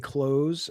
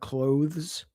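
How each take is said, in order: First: The th sound is left out. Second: The th sound is clearly pronounced. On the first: "I used to say clothes" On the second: "people pronounce the T H"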